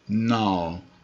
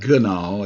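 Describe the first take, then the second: First: The g is silent; it starts with n. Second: The word starts with a hard g sound. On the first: The speaker calls it right. "The G is silent" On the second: The speaker calls it wrong. "it's not gnaw"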